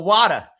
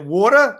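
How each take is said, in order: First: "water" with an open "wah" vowel; "water" in a demonstrated city accent, open first vowel; regional pronunciation. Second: "water" with a rounded "waw" vowel; "water" in a demonstrated city accent, rounded first vowel; regional pronunciation. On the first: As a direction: say "water" as "wah-tuh", East Coast style. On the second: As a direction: say "water" as "waw-tuh", East Coast style. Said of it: "New York, I always tell people". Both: Shown as a demonstration.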